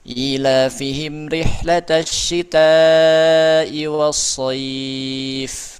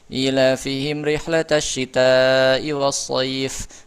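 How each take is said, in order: First: The lengthened vowels are held moderately, at a medium pace. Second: The lengthened vowels are held briefly, at a quick pace. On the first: "tadwir ... empat" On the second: "Hadar dibaca dua saja"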